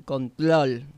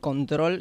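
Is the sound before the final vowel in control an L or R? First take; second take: L; R. First: The R is replaced by an L sound. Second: It is said with a normal R sound. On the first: "dicen control" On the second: "en vez de control"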